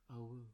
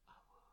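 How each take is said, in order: First: Said in the usual way. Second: Gentle breathy whisper of awu. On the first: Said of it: "Just saying that word to yourself". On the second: Shown as a demonstration. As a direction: breathe the word out softly. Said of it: "whispering to yourself a gentle".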